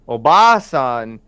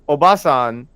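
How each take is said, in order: First: The second syllable's vowel is held long. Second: The second syllable's vowel is short. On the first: It means an old woman. "Obasan is old woman. ... if there was an extra A there, then it would be old woman" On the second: It means a woman. "So Obasan is like woman"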